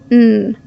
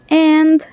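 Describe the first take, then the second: First: The word is reduced to a quick n sound. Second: The word is said fully with a clear d. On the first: "or quick n" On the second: "pronouncing and clearly like that"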